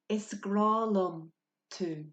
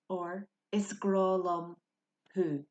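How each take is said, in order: First: The last word starts with a 't' sound. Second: The last word starts with an 'h' sound.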